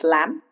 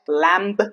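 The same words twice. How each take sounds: First: No b sound is heard at the end. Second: A b sound is heard at the end. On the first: The speaker calls it right. "it's lamb" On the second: The speaker calls it wrong. "not lamb"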